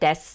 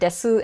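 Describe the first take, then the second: First: The final u vowel is dropped entirely. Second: The final u vowel is clearly pronounced. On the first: Ordinary everyday speech. "I sometimes just pronounce it des" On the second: Careful, over-enunciated speech. "I sometimes pronounce it desu"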